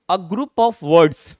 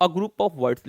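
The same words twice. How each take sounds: First: 1 mock student answer. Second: Said in the usual way. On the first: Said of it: "Mostly students ये कहेंगे". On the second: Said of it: "पहला line जो उनका होगा".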